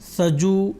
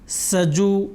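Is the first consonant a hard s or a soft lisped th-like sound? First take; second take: soft; hard s. First: The first consonant is soft, like a lisped th. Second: The first consonant is a hard, crisp s. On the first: The speaker calls it wrong. "अगर हम इस सीन की आवाज़ नरम पढ़ेंगे यानी सजु ... तो ये गलत होगा" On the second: The speaker calls it right. "सीन की अपनी आवाज़ जो सख्ती से है उस आवाज़ के साथ इसको पढ़ना चाहिए"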